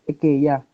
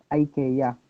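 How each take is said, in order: First: It is said the Swedish way. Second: It is said the American way.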